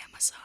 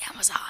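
First: Much softer, under the breath; barely audible prompt; quiet prompt. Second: Said in the usual way. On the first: Shown as a demonstration. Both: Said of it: "Say Amazon".

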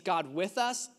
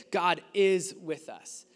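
First: Said in the usual way. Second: "is" stands out, then the phrase falls away; stress on IS. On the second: Shown as a demonstration. Preacher reading another translation to the congregation, stress on "is". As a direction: punch the word "is" in the middle. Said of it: "put an emphasis on that word".

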